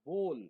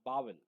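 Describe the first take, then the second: First: The vowel is a plain 'oh' sound. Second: The vowel is an 'ow' sound, like 'bowel'. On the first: The speaker calls it right. "সঠিক যে pronunciation হচ্ছে বোল" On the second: The speaker calls it wrong. "Not বাওয়েল"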